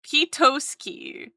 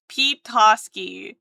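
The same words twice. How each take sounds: First: Petoski drawn out slow, pet-OH-ski; trying the word Petoski slowly. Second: Petoski slow and firmer; testing Petoski slowly; Petoski again. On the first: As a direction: sound out Petoski carefully. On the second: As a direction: repeat Petoski slowly to test it. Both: Shown as a demonstration. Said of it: "P-, Potowski?".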